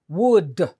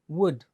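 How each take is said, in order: First: The final D is released with an added syllable. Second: The final D is clipped with no added syllable. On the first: "you have to almost hit them with another syllable" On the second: "when you only go would"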